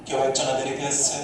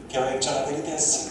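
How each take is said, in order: Both takes have the same delivery.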